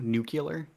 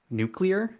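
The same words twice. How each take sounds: First: An extra 'u' vowel comes before the L. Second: The 'cle' cluster is said without an extra vowel. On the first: The speaker calls it wrong. "with like a U" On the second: The speaker calls it right. "make sure I'm pronouncing it nuclear"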